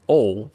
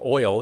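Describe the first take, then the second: First: It is said in a Southern accent. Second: It is said in a general American accent.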